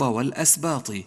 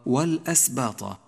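First: The final t takes an i vowel. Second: The final t takes an a vowel. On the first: "جاء في أول الصفحة من نفس الكلمة مكسورا" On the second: "حرف الطاء مفتوح"

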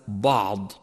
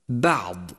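First: The first consonant is heavy and thickened. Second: The first consonant is light, not thickened. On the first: The speaker calls it wrong. "وليس" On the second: The speaker calls it right. "الفظه هكذا"

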